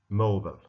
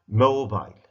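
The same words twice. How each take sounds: First: It is said with an American accent. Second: It is said with a British accent. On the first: "then American one" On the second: "I will start with English pronunciation"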